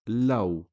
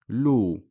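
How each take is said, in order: First: The vowel glides from a to o. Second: The vowel is a plain long u sound. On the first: The speaker calls it right. "it is pronounced law" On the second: The speaker calls it wrong. "You would think to pronounce this as lu"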